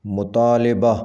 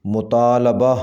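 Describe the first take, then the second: First: مطالبہ with a short i, "mutaaliba"; mispronounced. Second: مطالبہ with a short a after l, "mutaalaba"; correct pronunciation. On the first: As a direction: say مطالبہ as mu-taa-LI-ba. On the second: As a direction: say مطالبہ as mu-taa-LA-ba. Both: Shown as a demonstration. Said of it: "صحیح تلفظ ہے".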